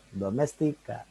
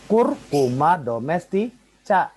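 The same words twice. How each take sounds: First: "Domestika" ending in a hard "ka"; Latin c as k. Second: "domestica" broken up, ending in a ch sound; final c as spelled. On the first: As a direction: model "Domestika" with k in the last syllable. (ucapkan "Domestika" dengan akhiran bunyi ka) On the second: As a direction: say "Curcuma domestica" slowly and louder, final "cha". (eja akhir "domestica" dengan bunyi c Indonesia) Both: Shown as a demonstration. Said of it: "berarti ka".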